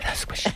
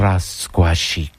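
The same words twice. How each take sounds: First: It is said in a soft whisper. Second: It is spoken aloud with rolled R's.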